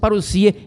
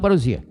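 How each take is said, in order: First: The middle consonant is a voiceless s sound. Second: The middle consonant is a voiced z sound. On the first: The speaker calls it right. "pronúncia parousia" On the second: The speaker calls it wrong. "e não parousia"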